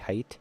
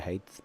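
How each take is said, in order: First: The word ends with a plain t sound. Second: The word ends with a th sound. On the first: This is the standard pronunciation. "I know it's technically height" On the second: This is the speaker's habitual pronunciation. "I know it's not a T H, I'm gonna say height"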